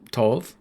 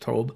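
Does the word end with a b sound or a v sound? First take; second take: v sound; b sound. First: The word ends with a v sound. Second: The word ends with a b sound. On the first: The speaker calls it wrong. "it doesn't have the the the v sound" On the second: The speaker calls it right. "It should be a b sound"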